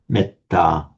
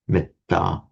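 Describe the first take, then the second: First: The first vowel is short. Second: The first vowel is short.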